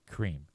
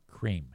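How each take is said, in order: No difference in how they are said.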